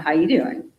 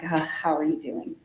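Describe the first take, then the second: First: It sounds flirtatious, like Joey from Friends. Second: It sounds empathetic and concerned.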